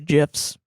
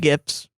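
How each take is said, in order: First: The word begins with a j sound. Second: The word begins with a hard g sound. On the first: The speaker calls it wrong. "I don't say gifs. That's peanut butter" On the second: The speaker calls it right. "And I say gifs"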